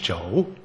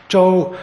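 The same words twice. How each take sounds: First: Zhou starting low and sweeping upward; rising tone on zhou. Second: Zhou pitched high and held level. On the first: Lecturer contrasting cohort with target, zhou on rising pitch. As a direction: lift the pitch through zhou. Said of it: "it's a rising pitch". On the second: Lecturer showing listeners the first tone, zhou on high level tone. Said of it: "this high level tone". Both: Shown as a demonstration.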